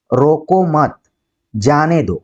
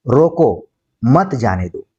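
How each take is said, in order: First: "रोको मत", a clear break, then "जाने दो"; pause after मत. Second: Slow रोको, break, then मत जाने दो as one phrase; pause after रोको. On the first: Teacher saying let him go, pause after मत. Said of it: "कॉमा के वजह से ही बलाघात". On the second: Teacher forbidding going, slow, pause after रोको. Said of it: "रोका जा रहा है कि मत जाइए". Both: Shown as a demonstration.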